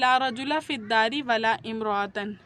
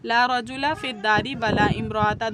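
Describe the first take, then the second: First: The first noun ends -a, the second -an. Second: Both nouns end in a short -a. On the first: "पहले में सिंगल और दूसरे में तनवीन के साथ" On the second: "दोनों पर नसब, ... सिंगल नसब"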